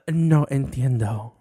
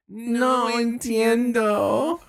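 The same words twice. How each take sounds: First: It is said in a less whiny voice. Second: It is said in a more whiny voice.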